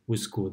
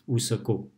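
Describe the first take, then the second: First: The middle syllable is reduced to a half sound. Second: The middle syllable is said with a full vowel. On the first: The speaker calls it right. "The so in the middle is pronounced like half" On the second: The speaker calls it wrong. "we don't say usako that much"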